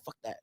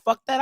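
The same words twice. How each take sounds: First: Low, much softer reply; quoting himself. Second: Higher-pitched retort; quoting the wife. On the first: Husband echoes his wife, low quiet agreement. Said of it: "I said". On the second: Wife agrees about the snub, higher-pitched retort. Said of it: "She said". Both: Retold or imitated.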